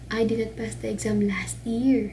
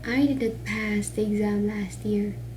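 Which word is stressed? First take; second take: last year; pass. First: The emphasis falls on the words last year. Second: The emphasis falls on the word pass. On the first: He passed it at a different time. "ang emphasis ka na sa last year" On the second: He did something else with the exam. "If you put the accent or emphasis on the word pass"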